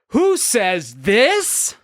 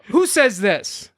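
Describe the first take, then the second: First: The phrase has a strange, unusual rhythm. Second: The phrase has a plain, ordinary rhythm. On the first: "that unusual cadence that you s- you uh, employed in the first utterance" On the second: "then you said it again without that strange cadence"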